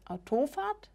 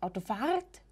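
First: The stress is on the second syllable. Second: The stress is on the third syllable. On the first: "nicht Autofahrt" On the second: "und nicht Autofahrt"

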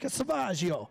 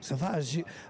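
First: It is said in a put-on gangster accent. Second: It is said in the speaker's ordinary voice.

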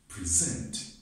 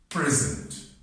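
First: The stress is on the second syllable. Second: The stress is on the first syllable. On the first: It is a verb: to give a talk or show something. "Now let's see when the stress shifts on the second syllable" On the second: It is a noun: a gift. "I want to stress the first syllable"

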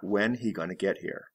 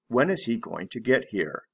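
First: Is is left out completely. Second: Is is said as a separate full word.

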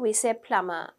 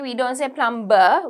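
First: The B sound is silent. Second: The B sound is clearly pronounced. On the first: The speaker calls it right. "so the B is quite silent there" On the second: The speaker calls it wrong.

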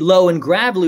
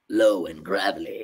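First: It is said in a plain normal voice. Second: It is said in a low, gravelly voice.

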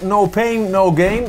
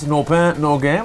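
First: It is said in a plain, unaccented way. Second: It is said with a French accent.

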